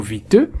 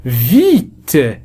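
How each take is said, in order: First: Vite with an added final e, vit-e; wrong pronunciation demo. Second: Vite with silent final e, just vit; correct model. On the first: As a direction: show the mistake, voicing an extra e. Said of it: "لا نقول". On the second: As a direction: model it clean, no e. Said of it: "لا ينطق". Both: Shown as a demonstration.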